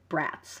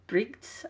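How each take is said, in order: First: The word sounds like the English word brats. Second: The word sounds unlike the English word brats. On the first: The speaker calls it wrong. "I used to pronounce it Brats, because that's what that word looks like to me" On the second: The speaker calls it right. "I think is what it is"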